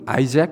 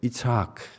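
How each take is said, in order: First: The name is said with English sounds, 'Eye-zak'. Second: The name is said with Hebrew sounds, 'Yitzhak'. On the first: "영어로는 아이잭 이렇게 저희들이 발음하고요" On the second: "히브리어를 히브리어 좀 답게 읽으면 이렇게 읽을 수 있어요"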